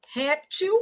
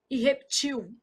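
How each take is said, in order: First: Réptil, HÉP-til, open É; stressed first syllable. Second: Reptil, hep-TIL, stress moves to the end; stressed last syllable. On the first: Teacher marking the stressed syllable, Réptil stressed on RÉP. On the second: Teacher marking the stressed syllable, reptil stressed on TIL. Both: Shown as a demonstration. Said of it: "tô marcando a sílaba tônica".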